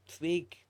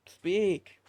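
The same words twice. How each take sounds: First: Said in the usual way. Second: Louder, higher command. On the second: Real, not acted. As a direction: bark the order at the pet. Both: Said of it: "Speak for me".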